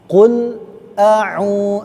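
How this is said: A short pause separates qul from a'u. The speaker calls it right. "agak berhenti sedikit ya, di jeda"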